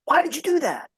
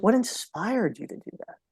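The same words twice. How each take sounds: First: Sharp, high "Why did you do that?" with "why" jumping up; "Why" as a pointed demand for an explanation; demanding justification. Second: Softer "What inspired you to do that?" with a gentle lift on "what"; "What" said softly, like an invitation to share; curious and inviting. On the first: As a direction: challenge them, pitch "why" high and accusing. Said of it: "why is about justification". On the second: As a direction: ask it openly, wanting to hear their story. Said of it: "What's about sharing". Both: Shown as a demonstration.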